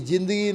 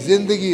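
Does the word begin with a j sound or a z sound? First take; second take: j sound; z sound. First: The first sound is a plain j. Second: The first sound is a buzzing z. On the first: The speaker calls it wrong. "जिंदगी नहीं होता" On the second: The speaker calls it right. "जिंदगी होता है"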